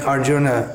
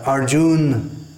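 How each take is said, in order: First: The final vowel is pronounced. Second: The final vowel is dropped. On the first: The speaker calls it right. "instead of saying Arjuna" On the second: The speaker calls it wrong. "typical mispronunciations"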